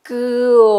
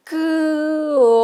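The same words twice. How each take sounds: First: Drawn-out comida, vowels held; stretched word. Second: Comida slow and very drawn out, every vowel held long; stretched even more. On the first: Teacher stretching a word for a child, drawn out. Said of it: "que estire la palabra". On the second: Teacher stretching the word further for children, very slow. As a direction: pull comida out as long as you can. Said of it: "La estiramos más todavía". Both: Shown as a demonstration.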